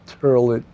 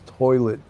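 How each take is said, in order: First: The vowel sounds like 'ur', Brooklyn pronunciation. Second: The vowel sounds like 'oy', standard pronunciation. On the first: The speaker calls it wrong. "not turlet" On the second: The speaker calls it right. "It's toilet"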